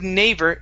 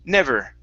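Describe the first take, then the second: First: The first vowel is a long 'ay' sound. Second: The first vowel is a short 'eh' sound. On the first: The speaker calls it wrong. "you said neighbor, starting off with an A, nay" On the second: The speaker calls it right. "it's short E"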